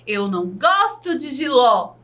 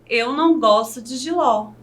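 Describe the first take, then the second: First: It is said with strong exclamatory emphasis. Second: It is said as a calm, plain statement.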